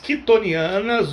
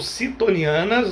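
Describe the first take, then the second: First: The word begins with a K sound. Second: The word begins with an S sound. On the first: "eu chamo de quitonianas" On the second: "não dá para saber qual seria a pronúncia correta"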